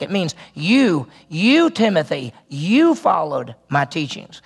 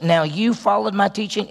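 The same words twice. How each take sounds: First: Slow, each you leaned on hard; you punched slowly, with weight; stress on you. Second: Said in the usual way. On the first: Shown as a demonstration. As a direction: drive home the word you, slowly. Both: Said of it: "it's really emphatic".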